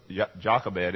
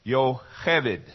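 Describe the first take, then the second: First: "Jochebed" with an English J sound, JOCK-eh-bed; wrong pronunciation. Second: "Yocheved" with a Y, yo-HEH-ved; Hebrew pronunciation. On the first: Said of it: "is not pronounced Jocheb". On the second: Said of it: "the way you pronounce it in Hebrew". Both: Shown as a demonstration.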